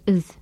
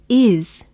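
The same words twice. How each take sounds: First: The vowel is weakened to a reduced form. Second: The vowel is said in its full form. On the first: "The vowel sounds in the and is have been weakened or reduced" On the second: "And instead of is"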